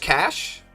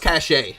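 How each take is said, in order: First: The word is said the plain English way. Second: The word is said the French-sounding way. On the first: "Is it just cash?" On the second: "Seems French to me"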